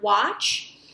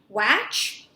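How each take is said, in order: First: The vowel sounds like a short O. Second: The vowel is a short A, as in hatch. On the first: The speaker calls it right. "the short A is going to sound a little bit more like a short O" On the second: The speaker calls it wrong. "W, ah, ch. Watch? Not quite"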